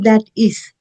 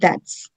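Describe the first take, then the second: First: It is said as two full, separate words. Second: It is said as one contracted word. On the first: The speaker calls it wrong. "you cannot say that is" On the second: The speaker calls it right. "You have to say that's"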